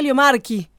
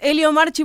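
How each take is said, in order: First: The name is pronounced the Italian way. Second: The name is pronounced the Spanish way.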